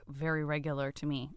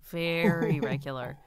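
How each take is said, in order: First: Said in the usual way. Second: VERY stretched out slowly in "Very regular"; "Very regular" repeated slower, with a long "Very"; drawn-out emphasis. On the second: Real, not acted. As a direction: lean on "Very", slow and deliberate.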